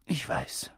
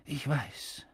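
First: Whispered, throat tight; barely gets it out; choked, whispered repeat. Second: Soft, choked voice; holding back tears; softly choked old man. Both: A narrator's reading. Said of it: "mit belegter Stimme".

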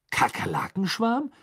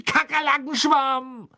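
First: High, rising, puzzled question; bewildered questioning echo; baffled. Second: Very high, loud, drawn-out yell; long furious cry at top pitch; angry shout. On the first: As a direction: repeat it in disbelief, not shouted. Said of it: "sagte er verdutzt". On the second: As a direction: scream it out in exasperation. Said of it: "schrie er zornig auf einem Bein hüpfend". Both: A narrator's reading.

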